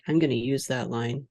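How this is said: It is said dryly, trailing off flatly.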